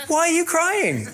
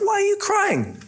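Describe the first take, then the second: First: High, slow, laughing husband voice; mock clueless husband. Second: Very high squeaky husband voice; mock clueless husband. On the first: Preacher mocking Elkanah to the congregation, high laughing clueless husband. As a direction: ham up a clueless husband, chuckling. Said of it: "classic husband here". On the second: Preacher quoting Elkanah to Hannah, high mock oblivious husband. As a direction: play the husband as oblivious and pleased. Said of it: "And he said".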